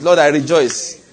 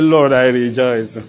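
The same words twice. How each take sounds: First: It is said in a happy, smiling tone. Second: It is said in a sad, gloomy tone.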